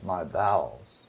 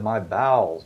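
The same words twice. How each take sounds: First: Soft and slow, sinking low; deeply moved, hushed. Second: Said in the usual way. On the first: Retold or imitated. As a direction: let it fall away quietly, as if moved from deep within. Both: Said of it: "moved to the very depths of his being".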